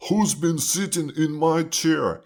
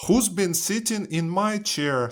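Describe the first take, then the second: First: Big father bear demanding an answer; storybook papa bear, higher and insistent. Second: High-pitched mother bear; storybook mama bear asking, much higher. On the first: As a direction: play an indignant father bear. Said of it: "he says". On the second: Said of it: "Mother Bear looks at her chair". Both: A narrator's reading.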